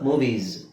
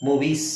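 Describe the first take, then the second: First: The word ends in a voiced z sound. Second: The word ends in a voiceless s sound. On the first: The speaker calls it right. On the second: The speaker calls it wrong.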